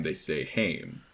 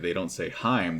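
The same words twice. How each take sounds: First: Haim said to rhyme with "name", drawn out; slow, softer "Haim", rhyming with fame; contrasting Haim. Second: Heim said to rhyme with "time"; the rejected "Heim", rhyming with rhyme; contrasting Heim. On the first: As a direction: say Haim with an "ay" vowel, slowly. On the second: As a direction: say Heim with a long eye vowel. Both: Shown as a demonstration. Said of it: "part of their pronunciation guide".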